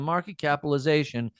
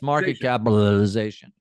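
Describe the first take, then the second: First: The middle syllables are slurred together quickly. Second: Every syllable is pronounced clearly and distinctly. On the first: The speaker calls it wrong. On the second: The speaker calls it right.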